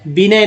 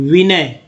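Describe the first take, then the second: First: विनय said with a b sound, like "binay"; wrong way to say it. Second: विनय said with a clear v sound, "vinay"; correct way to say it. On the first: Teacher showing students the mispronunciation, विनय said as "binay". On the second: Teacher giving students the correct form, विनय said with v. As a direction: say विनय with a proper v. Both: Shown as a demonstration. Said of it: "विनय नहीं".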